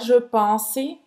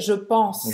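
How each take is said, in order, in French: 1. Un son de voyelle supplémentaire suit le s final. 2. La phrase se termine nettement sur le son s. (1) "não é je pense" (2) "é je pense"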